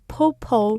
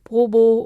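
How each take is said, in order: First: The first consonant is puffed and aspirated. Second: The first consonant is plain and lax. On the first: "or popo" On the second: "not 보보"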